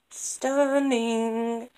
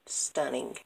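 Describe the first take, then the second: First: Higher and louder, thrilled; overjoyed exclamation; excited. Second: Said in the usual way. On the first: Real, not acted. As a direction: gush the word with delight.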